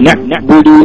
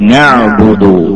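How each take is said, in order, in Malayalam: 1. തൊണ്ട പൂർണ്ണമായി അടയുന്നു, കടുപ്പത്തിൽ ഒരു നിർത്തൽ കേൾക്കാം. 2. തൊണ്ട അടയാതെ ചുരുങ്ങുന്നു, സുഗമമായി ഒഴുകുന്നു.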